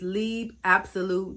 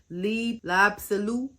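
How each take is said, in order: First: No L sound is heard before 'Absolute'. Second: An L sound is heard before 'Absolute'.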